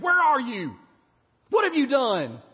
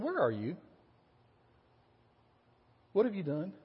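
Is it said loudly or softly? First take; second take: loudly; softly. First: It is shouted in a loud, angry voice. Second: It is said in a soft, gentle voice.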